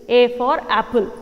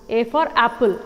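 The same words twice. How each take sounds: Both takes have the same delivery.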